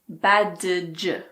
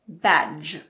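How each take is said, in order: First: The D sound is clearly pronounced. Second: The D sound is silent. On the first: The speaker calls it wrong. "It's not badge" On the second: The speaker calls it right. "It's just badge"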